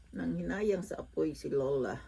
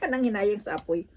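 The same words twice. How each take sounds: First: Said in the usual way. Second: Laughing, higher and louder. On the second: Real, not acted. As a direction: laugh through the whole line. Laughs at her own thrift.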